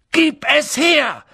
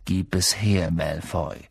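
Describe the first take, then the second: First: High, loud, drawn-out shout; Schrei. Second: Calm, low-pitched demand; ruhig. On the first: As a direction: yell the demand, every word punched. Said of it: "schrie Harry". (lauter, wütender Schrei) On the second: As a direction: lower the voice, stay calm and controlled. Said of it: "sagte Harry ruhig". (ruhig, mit tiefer Stimme) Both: A narrator's reading.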